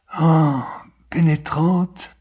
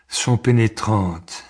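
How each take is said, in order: First: "pénétrantes" lifted high and drawn out, rising at the end; exclaimed echo. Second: Said in the usual way. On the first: A narrator's reading. Poet dwelling on autumn evenings, "pénétrantes" echoed high and slow. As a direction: sigh "Ah", then raise "pénétrantes" slowly.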